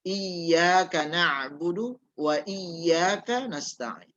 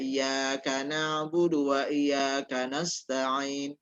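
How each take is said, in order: First: Both iyyaka are said with a doubled y. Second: Neither iyyaka is said with a doubled y. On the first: The speaker calls it right. "Jadi sekali lagi" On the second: The speaker calls it wrong. "membaca tidak ditasydidkan"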